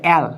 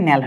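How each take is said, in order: First: অ্যাল starting on the open vowel, no n; teacher isolating the ending অ্যাল; split form. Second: ন্যাল starting with a clear n; teacher showing ন্যাল as the joined sound; joined form. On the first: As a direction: say অ্যাল as a bare "al". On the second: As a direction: put an n onto "al" to make ন্যাল. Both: Shown as a demonstration. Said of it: "সন্ধি বিচ্ছেদ হয়ে ন্যাল".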